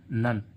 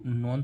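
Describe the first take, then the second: First: The vowel is a short 'uh' sound. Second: The vowel is an open 'o' sound. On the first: The speaker calls it right. "इसको क्या पढ़ रहे हैं" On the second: The speaker calls it wrong. "इसको नॉन नॉन तो नहीं पढ़ रहे ना"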